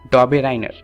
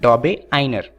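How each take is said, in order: First: An r sound comes before 'einer'. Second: There is no r sound before 'einer'. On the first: This is how people in India say it. "Indians हैं वो इन्हें pronounce करते हैं" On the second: This is how people in the UK say it. "UK वाले से pronounce करते हैं"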